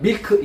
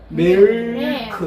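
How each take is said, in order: First: The word is said flatly, Korean style. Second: The word is said with a clear, held L. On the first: The speaker calls it wrong. "그냥 밀크 이게 아니고" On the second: The speaker calls it right. "밀크 이런 느낌이에요"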